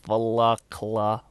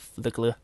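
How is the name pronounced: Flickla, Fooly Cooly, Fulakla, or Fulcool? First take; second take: Fulakla; Flickla. First: It is said as three syllables, fuh-lak-la. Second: It is said as two syllables, flick-la. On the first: "or Fulakla" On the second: "or Flickla"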